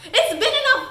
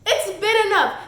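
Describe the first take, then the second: First: Much higher, loud, cracking with laughter; incredulous laughing peak. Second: Louder and higher, laughing at it; scoffing laugh as it spills out; laughing disbelief. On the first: Mocking his late rescue, loud high laughing outrage. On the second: Mocking the hero's timing, loud laughing disbelief. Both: Real, not acted. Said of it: "oh, it's enough".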